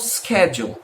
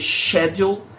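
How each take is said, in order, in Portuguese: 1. A palavra é dita do jeito americano. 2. A palavra é dita do jeito britânico. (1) "Os americanos normalmente pronunciam schedule" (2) "Os britânicos, eu já vi a grande maioria dizer schedule"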